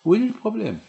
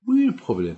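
First: Much higher and louder, pressing the question; insistent outcry. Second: Said in the usual way. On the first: Real, not acted. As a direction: hurl the question at the congregation. Rhetorical question repeated rising. (question martelée, plus aiguë et plus forte)

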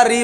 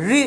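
First: री with the everyday forward tongue; light री, no curl to it; habitual ri. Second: री with tongue tilted and curled back; retroflex ri. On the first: Teacher admitting our habit, everyday forward री. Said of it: "क्योंकि हमारी आदत पड़ चुकी है". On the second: Teacher telling students to slant it, retroflex री. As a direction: sound री from the hollow of the roof. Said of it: "थोड़ा तिरछा करके". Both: Shown as a demonstration.

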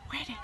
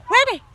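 First: Said in the usual way. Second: High, louder call across the room. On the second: Real, not acted. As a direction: call out to find them. Calling out for the birds.

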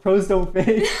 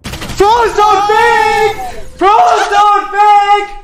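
First: Lower, softer quote of a yell through laughter; amused low-key replay of a holler; retold yell, amused. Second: High, drawn-out full-out shout; yelling across the house. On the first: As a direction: retell the shout without shouting, laughing. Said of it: "I, I yelled". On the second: Real, not acted. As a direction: holler it slowly so it carries through the house. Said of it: "I'm yelling across the house".

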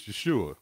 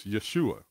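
First: Yeshua with the "u" stressed, as in soon. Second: Yeshua with the weight on its final "a"; stress on last syllable. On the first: Teacher giving the Messiah's name, Yeshua stressed on the U. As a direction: lean on the long oo in Yeshua. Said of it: "with the emphasis on the U". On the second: Teacher giving the Hebrew word for salvation, Yeshua stressed on the last syllable. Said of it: "with the emphasis on the last syllable". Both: Shown as a demonstration.

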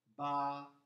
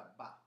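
First: "ba." with a long, held a, said loud; long vowel ba. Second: "ba," clipped short and soft; short vowel ba. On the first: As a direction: stretch the a in "ba." clearly. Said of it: "seguita dal vocale lungo a". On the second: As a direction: say "ba," with a quick short a. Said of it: "con la stanchetta sopra". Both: Shown as a demonstration.

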